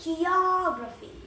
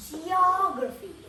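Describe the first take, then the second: First: High falling demo of "Geography"; "Geography" said high, dropping at the end; saying the word. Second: High rising demo of "geography"; "geography" said high, ending on a rise; saying the word. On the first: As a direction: bring "Geography" down firmly at the end. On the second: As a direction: lift "geography" up at the end like a question. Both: Shown as a demonstration. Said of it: "That's how you say it".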